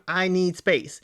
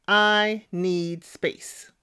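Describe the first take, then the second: First: Said in the usual way. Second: Each word of I need space laid down slowly; slow and deliberate. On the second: Shown as a demonstration. Commentator stressing how little Alex had to say, very slowly. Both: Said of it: "Three words".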